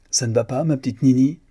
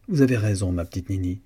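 First: Louder, higher call across the workroom; appel crié. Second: Conciliatory, softening and dropping at the end; conciliante. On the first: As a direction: call out a question to someone at a distance. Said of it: "cria de sa place". (question lancée d'une voix forte) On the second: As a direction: gently give in to soothe her. (ton conciliant, qui s'adoucit) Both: A narrator's reading.

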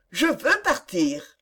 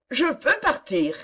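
First: Slow, measured insistence; insistent repeat. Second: Firm, raised-pitch declaration. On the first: Young woman holding to her decision against objections, slowly insistent. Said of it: "Antoinette répéta". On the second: Young woman announcing her decision to the couple, firmly. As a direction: state it firmly, higher than the narration. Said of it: "elle dit d'une voix ferme". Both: A narrator's reading.

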